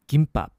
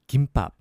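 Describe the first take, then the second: Both takes have the same delivery.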